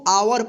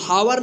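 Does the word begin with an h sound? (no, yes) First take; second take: no; yes. First: The word starts with a vowel, no h sound. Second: The word starts with an audible h sound. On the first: The speaker calls it right. "एच O यू आर इसको आवर पढ़ेंगे" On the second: The speaker calls it wrong. "इसको हावर नहीं पढ़ेंगे"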